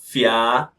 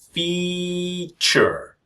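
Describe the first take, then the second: First: The ending is said with a full 'a' vowel. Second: The ending is said with a weak reduced vowel. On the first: The speaker calls it wrong. "I know you can see the letter A, but it's not fia" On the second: The speaker calls it right. "but feature"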